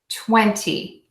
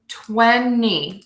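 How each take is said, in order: First: It is said with a T sound after N. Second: It is said with no T sound, just N. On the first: "You will also hear people say" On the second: "I don't say a T at all when I say that"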